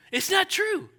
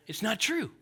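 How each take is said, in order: First: Not punched much higher and louder; stress on not. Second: Said in the usual way. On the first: Shown as a demonstration. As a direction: hit the word not hard and high.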